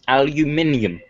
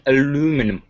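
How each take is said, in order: First: It is said with five syllables, British style. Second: It is said with four syllables, American style. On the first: "That's the British way" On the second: "is the way they say it"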